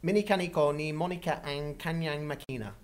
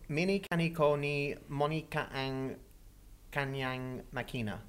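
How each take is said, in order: First: It is said fast. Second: It is said at a normal pace.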